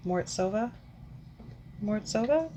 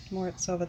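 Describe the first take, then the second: First: "Morozova" with a rising, unsure end; questioning. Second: "Morozova" softer, without the questioning rise; settled. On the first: Reviewer unsure after a week, "Morozova" rising like a question. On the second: Reviewer deciding the name sounds right, "Morozova" softly settled. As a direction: land "Morozova" quietly as a statement. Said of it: "That sounds right". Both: Real, not acted.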